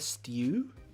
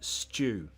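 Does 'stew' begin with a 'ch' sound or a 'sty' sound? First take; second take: sty; ch. First: The t is said like 'ty', as stew. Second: The t is said like 'ch', as chew.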